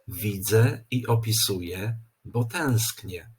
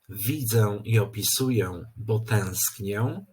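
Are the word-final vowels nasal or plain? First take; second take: plain; nasal. First: The final vowels are a plain e. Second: The final vowels are pronounced nasal. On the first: The speaker calls it right. "powinniśmy poprawnie powiedzieć" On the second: The speaker calls it wrong.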